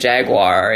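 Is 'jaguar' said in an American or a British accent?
American. It is said in an American accent. "like we say it in the U.S"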